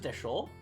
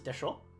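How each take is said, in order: First: The final vowel is short. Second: The final vowel is drawn out long.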